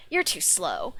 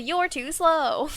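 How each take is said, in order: First: Said in the usual way. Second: Slow, higher, drawn-out smug taunt; Sonic taunt. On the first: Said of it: "not even". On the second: Retold or imitated. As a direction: stretch it out, cocky and slow. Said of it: "but it's literally".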